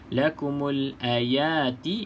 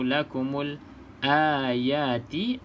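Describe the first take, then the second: First: The first vowel of ayati is kept short. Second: The first vowel of ayati is held long. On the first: "a tu pendek" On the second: "a tu panjang"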